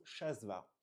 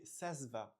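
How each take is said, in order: First: Shasva, the corrected sh version; corrected pronunciation. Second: Sasva said with a plain s, sass-va; Sasva, the wrong s version; mispronounced with s. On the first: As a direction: say Shasva starting with sh, not s. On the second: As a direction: say Sasva starting with a hissed s sound. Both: Shown as a demonstration. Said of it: "On dit plutôt Shasva".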